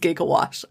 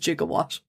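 First: The word begins with a hard g sound. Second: The word begins with a j sound. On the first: The speaker calls it right. "how he pronounces gigawatt" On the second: The speaker calls it wrong. "as gigawatt"

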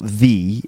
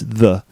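First: The word is said in its full, strong form. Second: The word is said in its reduced, weak form. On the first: The speaker calls it wrong. "It's not the" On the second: The speaker calls it right. "I suppose that's a weak form"

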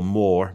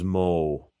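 First: The word ends with an R sound. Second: The word ends with a W-like sound. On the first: "rather than an R" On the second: "that W at the end of more"

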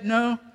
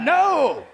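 First: The word is said calmly at normal volume. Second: The word is yelled loudly. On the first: "You can just say no" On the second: "I heard somebody yelling like they got like"

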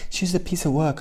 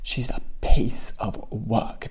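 First: The words are said in a plain, neutral tone. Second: The words are said in a disgusted tone. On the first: The speaker calls it wrong. "you don't just say" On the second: The speaker calls it right. "You have to say it with a little bit of disgust"

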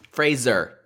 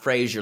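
First: It is not pronounced like the sitcom name Frasier. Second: It is pronounced like the sitcom name Frasier. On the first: The speaker calls it right. "Let's make sure we say it" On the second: The speaker calls it wrong. "Not Fraser, like Fraser Crane"

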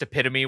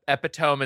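First: The word is said in its standard pronunciation. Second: The word is read out as it is spelled. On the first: The speaker calls it right. "is pronounced epitome" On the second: The speaker calls it wrong. "I never thought it was spelled like that"

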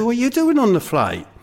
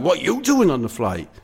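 First: It sounds mildly shocked. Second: It sounds angry.

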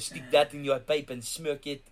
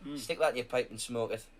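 First: It is said in a put-on French accent. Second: It is said in the speaker's normal English accent.

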